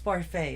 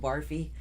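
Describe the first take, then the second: First: The name ends with an 'ay' sound. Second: The name ends with an 'ee' sound. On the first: The bearer corrects how the name is said. The speaker calls it right. "It's Barfay" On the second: Other people mispronounced the name. The speaker calls it wrong. "they kept calling him Barfy"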